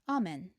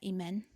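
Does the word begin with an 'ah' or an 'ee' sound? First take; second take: ah; ee. First: The word begins with an 'ah' vowel. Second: The word begins with an 'ee' vowel. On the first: The speaker calls it right. "We actually pronounce that amen" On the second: The speaker calls it wrong. "we don't pronounce that imen"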